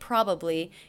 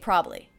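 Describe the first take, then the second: First: The word is said with all three syllables. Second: The word is reduced to two syllables. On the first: "They're saying it back to me with three" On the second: "I said it with two syllables"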